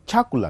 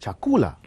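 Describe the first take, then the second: First: The stress is on the first syllable. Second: The stress is on the second syllable. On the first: The speaker calls it wrong. "You can't put a stress on the first syllable. You can't say chakula" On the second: The speaker calls it right. "think about a stress there. That becomes chakula"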